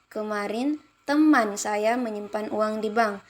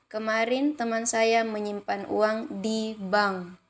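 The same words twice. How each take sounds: First: The stress falls on the word teman. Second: The stress falls on the words di bank. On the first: "kalimat kedua pada teman" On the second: "kalimat keenam di bank"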